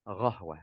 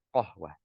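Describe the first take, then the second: First: The word begins with a gh sound. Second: The word begins with a q sound. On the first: The speaker calls it wrong. "qahwah jadi ghahwah" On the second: The speaker calls it right. "harusnya apa? Qahwah"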